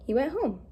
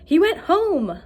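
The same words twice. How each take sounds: First: Said in the usual way. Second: High, loud and thrilled; excited. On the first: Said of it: "a period". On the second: Shown as a demonstration. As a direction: shout it out with excitement. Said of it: "if I was super excited that he went home".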